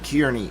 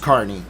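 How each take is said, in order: First: The first syllable sounds like 'keer'. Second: The first syllable sounds like 'car'. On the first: This is how someone else kept saying it. The speaker calls it wrong. "someone kept saying Kearney in court" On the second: This is the name's real pronunciation. The speaker calls it right. "if I think of a car, when I say the name, I can say it right"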